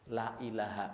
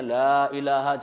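First: The vowel in 'la' is cut short. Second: The vowel in 'la' is held long. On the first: Truly there is a god. The speaker calls it wrong. "la-nya pendek" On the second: There is no god. The speaker calls it right. "harusnya la ilaha"

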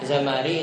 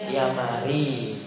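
First: The name starts with a z sound. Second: The name starts with a y sound. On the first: "Enggak bisa baca z" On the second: "Zamari itu jadi yamari"

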